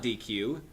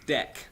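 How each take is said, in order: First: It is said with two syllables, like dee-queue. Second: It is said with one syllable, like deck. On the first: The speaker calls it wrong. "No, it's not D Q" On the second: The speaker calls it right. "It's D E C"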